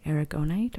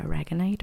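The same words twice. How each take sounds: First: "aragonite" said as air-uh-GO-nite; long O in "aragonite", as in GO; first pronunciation option. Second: "aragonite" said as uh-RAG-uh-nite; second pronunciation option. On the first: Reader offering either pronunciation, "aragonite" as air-uh-GO-nite. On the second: Reader offering the alternative, "aragonite" as uh-RAG-uh-nite. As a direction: stress RAG in "aragonite", short vowel before it. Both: Shown as a demonstration. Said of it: "or however you pronounce it".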